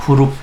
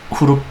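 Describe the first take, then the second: The two takes are said the same way.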